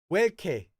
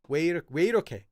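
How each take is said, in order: First: The phrase is contracted into two short syllables. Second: The phrase is said with all its syllables.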